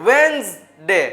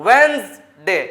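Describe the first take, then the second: Both takes have the same delivery.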